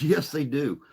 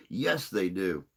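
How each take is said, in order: First: Says it through a laugh, pitched up and louder; amused, laughing agreement. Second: Said in the usual way. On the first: Real, not acted. Laughing at Groundskeeper Willie comparison.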